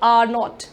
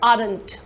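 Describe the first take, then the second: First: It is said as two separate words. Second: It is said as one contracted word. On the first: The speaker calls it wrong. "We do नॉट call it आर नॉट" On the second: The speaker calls it right. "It is आरंट"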